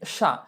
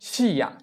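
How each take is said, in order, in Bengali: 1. sh ধ্বনিটি সরাসরি a-তে গিয়ে মেশে। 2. a-র আগে i-র মতো একটি ধ্বনি শোনা যায়। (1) "কিন্তু হবে কি সা" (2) "উচ্চারণ হওয়ার কথা ছিল কি শিয়া"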